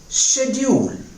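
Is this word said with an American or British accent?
British. It is said with a British accent. "In British English, we say schedule"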